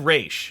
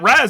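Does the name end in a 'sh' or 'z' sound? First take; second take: sh; z. First: The name ends with a 'sh' sound. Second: The name ends with a 'z' sound. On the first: This is the familiar version from the animated series. "We always said Raish" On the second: This is the version others call more correct. "Raz is more is more uh, correct"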